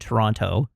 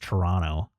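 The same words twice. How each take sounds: First: The second t is clearly pronounced. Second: The second t is dropped. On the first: The speaker calls it wrong. "which I overpronounced" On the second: The speaker calls it right. "because it's Toronto"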